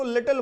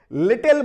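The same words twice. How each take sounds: First: लिटिल with the t and l softened; soft t. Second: लिटिल with a hard, struck t, louder; harsh t. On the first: Teacher shows students the soft लिटिल, light t. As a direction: say लिटिल gently, t barely tapped. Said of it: "बहुत ही softly इनको pronounce करेंगे". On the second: Teacher shows students the harsh लिटिल, loud hard t. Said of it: "ठक से लग रहा है दिमाग पे". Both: Shown as a demonstration.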